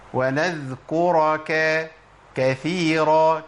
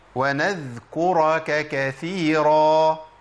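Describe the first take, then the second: Both takes have the same delivery.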